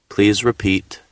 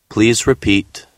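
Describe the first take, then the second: The two takes are said the same way.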